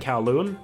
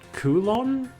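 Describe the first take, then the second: First: The first syllable sounds like 'cow'. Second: The first syllable sounds like 'coo'. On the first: It follows how the word is spelled. "I'm not going to change how I pronounce it" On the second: It follows how the voice actors said it. "that's what it sounded like in the voice acting"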